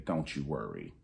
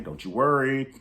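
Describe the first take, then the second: First: Softer, low teasing promise; lowered voice, playful warning to viewers; quiet tease. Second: Higher, louder playful promise; raised voice, teasing promise; loud tease. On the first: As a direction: hush it like a secret tease. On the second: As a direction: call it out to the viewers with relish. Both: Shown as a demonstration.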